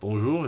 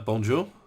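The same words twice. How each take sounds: First: It is said with a French pronunciation. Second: It is said with an English-style pronunciation.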